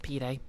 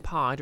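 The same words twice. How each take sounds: First: "pide" as pee-day; two-syllable pronunciation. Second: "pied" as one syllable; one-syllable pronunciation. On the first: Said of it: "Oh, it's pronounced". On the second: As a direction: say "pied" like "pie" with a d. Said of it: "Is it pr-, actually pronounced". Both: Shown as a demonstration.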